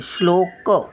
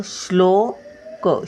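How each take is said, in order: First: Said in the usual way. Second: श्लोक with a light श before ल, slow; careful syllables. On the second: Shown as a demonstration. Grandmother teaching children to read, slow careful sounding. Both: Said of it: "शचा थोडासा उच्चार".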